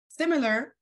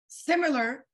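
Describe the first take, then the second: No difference in how they are said.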